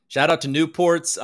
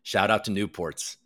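First: "Shout out to Newports" said louder, with "out" punched; hyped shout-out. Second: Said in the usual way. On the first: Shown as a demonstration. Streamer repeating the shout-out to the chat, hyped. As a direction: sell the shout-out like a hype man.

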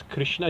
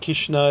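First: "Krishna" with a clear "kri"; "Krishna" said carefully, "Krish-na"; correct syllables. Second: "Krishna" with the first syllable slurred, "Kishna"; wrong syllables. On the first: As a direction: sound the r in "Krishna". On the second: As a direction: drop the r in "Krishna". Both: Shown as a demonstration. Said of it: "the syllables have to be that".

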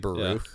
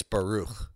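First: Said in the usual way. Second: Baruch ending in a gurgly, throaty CH; guttural CH. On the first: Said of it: "you can just say Baruch". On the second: Shown as a demonstration. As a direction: scrape the back of the tongue on the end of Baruch. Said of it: "there's a C H at the end".

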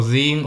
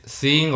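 First: "zing" starting on a buzzed Z; ZING with a z, not an s. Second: "sing" starting on a clean S. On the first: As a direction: voice the first sound of "zing" as Z. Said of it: "zing es como con Z". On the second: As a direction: SING with a hissless-buzz, plain s. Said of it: "la diferencia en el inglés". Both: Shown as a demonstration.

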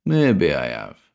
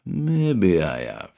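First: Slow, knowing; sly grin. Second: Sly grin. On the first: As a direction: draw it out slyly. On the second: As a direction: let it trail off knowingly. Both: A narrator's reading. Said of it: "Cranston grinned back".

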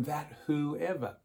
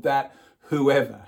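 First: Slow, softer trailing off on whoever; soft trailing read. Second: Whoever punched out louder with a falling tune; stress on whoever. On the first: Preacher reading the verse to the congregation, slow and soft. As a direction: let the verse fade out gently. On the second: Preacher stressing whoever to the congregation, loud and firm. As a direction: hit the word whoever hard. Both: Shown as a demonstration. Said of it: "Here we get, again have this big universal focus".

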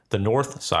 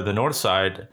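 First: "north" leaned on, set apart from "side"; odd emphasis on NORTH. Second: Said in the usual way. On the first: Real, not acted. Storyteller naming where they drove, oddly emphasizing "north". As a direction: repeat it with an overdone "north". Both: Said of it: "I don't know why I said it like that".

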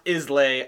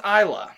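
First: Islay said as IZ-lay; Islay read as spelt, with a buzzing Z; spelling pronunciation. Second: Isla said as EYE-luh; Isla as EYE-luh, stress up front; correct pronunciation. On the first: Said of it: "it looks like it's pronounced". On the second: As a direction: say Isla with no s sound, ending in UH. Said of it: "It's actually pronounced Isla". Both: Shown as a demonstration.

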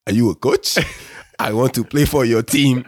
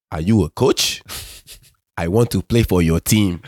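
First: Higher, joking imitation of an African accent; teasing African accent. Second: Put-on earnest question in a light African accent. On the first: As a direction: tease him by putting on the African accent. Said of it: "as a joke, he'd be like". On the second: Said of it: "in my African accent".

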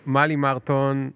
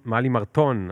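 First: "מרטון" with the stress on the first syllable; trying a pronunciation. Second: "מרטון" with the stress on the last syllable; trying another pronunciation. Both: Shown as a demonstration. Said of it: "איך את אומרת?".

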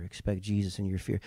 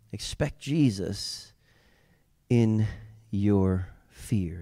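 First: Much softer, near a hush; soft repetition. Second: Slow, soft, words spaced apart; slow soft emphasis. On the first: Preacher repeating the refrain to the congregation, much softer. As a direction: let it sink in quietly. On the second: Preacher urging the congregation, slow and soft. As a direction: lay each word down gently. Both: Shown as a demonstration. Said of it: "repeated refrain".

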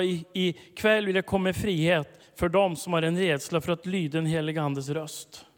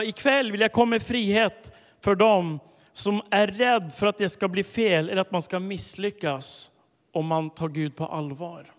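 First: Said in the usual way. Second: Emphatic proclamation. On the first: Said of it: "repeated prophetic word". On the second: Shown as a demonstration. Preacher declaring the Spirit's word loudly to the congregation. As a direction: proclaim it with building force. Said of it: "repeated prophetic word, built up".

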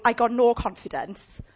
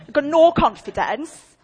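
First: Mock whine. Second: Drawn-out, mocking whine with a laugh; slow mock whine. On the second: Preacher mocking the client's claim, slow and laughing. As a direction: stretch it out like a sulky girl. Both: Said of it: "Like that, doing all of that".

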